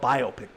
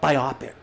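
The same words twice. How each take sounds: First: It is split as bio plus pick. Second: It is split as bi plus optic-like opic. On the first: The speaker calls it right. "It's called biopic" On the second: The speaker calls it wrong. "not biopic. You're not going to an optometrist"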